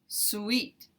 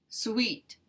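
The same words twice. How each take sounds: No difference in how they are said.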